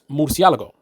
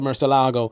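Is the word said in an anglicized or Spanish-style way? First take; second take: Spanish-style; anglicized. First: The word is said with a Spanish-style pronunciation. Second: The word is said with an anglicized pronunciation. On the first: The speaker calls it right. "that's really how the word is supposed to be pronounced" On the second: The speaker calls it wrong. "I would hear people mispronounce it"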